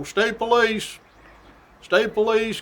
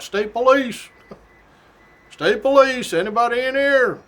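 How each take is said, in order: First: Announcing call. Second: Loud, high announcing shout; real loud. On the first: Retold or imitated. Trooper climbing stairs, calling out state police. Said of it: "we keep announcing". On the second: Shown as a demonstration. Trooper entering a house, shouting to announce himself. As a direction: call it out loud so anyone home hears. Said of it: "real loud".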